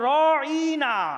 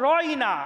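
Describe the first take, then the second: First: The word is stretched out with a twisted tongue. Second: The word is said plainly, without stretching. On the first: It means shepherd, an insult. The speaker calls it wrong. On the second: Please say it again. The speaker calls it right.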